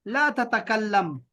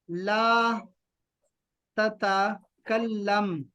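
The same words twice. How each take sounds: First: Said in the usual way. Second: "ला ... ततकल्लम" very slow, pause after ला; broken-up word. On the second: Shown as a demonstration. Teacher breaks new word into parts.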